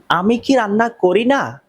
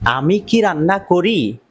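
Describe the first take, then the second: First: কি lifted higher, pressing the question; emphatic question. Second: Said in the usual way. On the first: Shown as a demonstration. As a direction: push it as an insistent question, কি raised high. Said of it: "যদি জোর দিয়ে বলেন". (জোর দিয়ে প্রশ্ন, কি উঁচু করে) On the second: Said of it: "যদি প্রশ্ন করেন".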